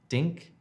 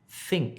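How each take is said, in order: First: The word begins with a d sound. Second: The word begins with a th sound. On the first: The speaker calls it wrong. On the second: The speaker calls it right.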